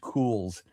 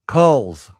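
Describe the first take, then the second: First: The vowel is long, as in 'cool'. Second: The vowel is short, as in 'cull'. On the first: The speaker calls it right. "but it is Cools" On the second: The speaker calls it wrong. "I used to pronounce it Culz, C U L Z"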